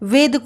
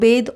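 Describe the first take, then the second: First: The word begins with a v sound. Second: The word begins with a b sound. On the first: The speaker calls it right. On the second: The speaker calls it wrong.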